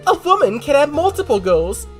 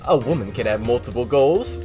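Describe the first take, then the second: First: It is said imitating the character's voice actress. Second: It is said in a normal reading voice.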